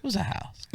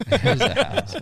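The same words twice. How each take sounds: First: Chuckling through it, higher; laughing. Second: Louder, higher insistence on "house"; insistent. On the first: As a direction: laugh it off while insisting. Laughing denial of a palace. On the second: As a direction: insist firmly, voice jumping up. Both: Real, not acted.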